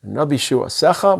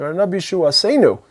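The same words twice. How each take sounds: First: Said in the usual way. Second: Asenu lifted high, ending stressed. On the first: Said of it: "It's not your salvation". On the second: Shown as a demonstration. Preacher to congregation, stressing Asenu, pitched high. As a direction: lean up into Asenu, our salvation. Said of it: "It's our salvation".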